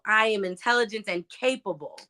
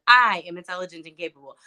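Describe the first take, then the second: First: The stress falls on the word "capable". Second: The stress falls on the word "I".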